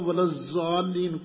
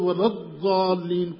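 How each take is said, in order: First: The key consonant is pronounced as a z-sound. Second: The key consonant is pronounced as an emphatic d-sound. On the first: The speaker calls it wrong. "کوئی نہیں پڑھتا" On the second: The speaker calls it right. "سارے وللظالین پڑھتے ہیں"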